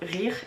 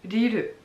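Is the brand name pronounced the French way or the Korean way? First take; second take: French; Korean. First: It is read like the French word, with r sounds. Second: It is said the Korean way, with l-like sounds. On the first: "ça s'écrit R I R E" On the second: "en coréen donc, ... ça se dit"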